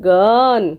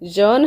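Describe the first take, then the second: First: The word begins with a hard g. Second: The word begins with a j sound. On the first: The speaker calls it right. "ଜି U N ଗନ୍ ହେଲା" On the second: The speaker calls it wrong. "ଜନ୍ ହବ ନାହିଁ"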